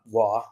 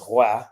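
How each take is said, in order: First: The name is said as French 'Wa'. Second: The name is said as English 'Roy'. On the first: The speaker calls it wrong. "It's not Wa" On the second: The speaker calls it right. "it's pronounced Roy"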